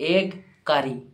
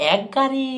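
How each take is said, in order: First: The first word ends with a g sound. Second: The first word ends with a k sound. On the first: The speaker calls it right. "ভাই ওটা এগ" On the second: The speaker calls it wrong. "বলছে এক গাড়ি"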